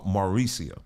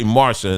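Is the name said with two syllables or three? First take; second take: three; two. First: The name is said with three syllables. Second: The name is said with two syllables. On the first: The speaker calls it right. "Hope I'm saying that right" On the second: The speaker calls it wrong. "I always want to say Marsha"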